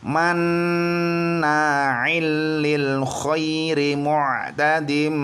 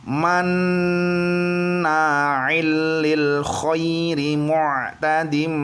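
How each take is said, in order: The two takes are said the same way.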